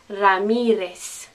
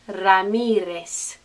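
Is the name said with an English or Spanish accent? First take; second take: Spanish; Spanish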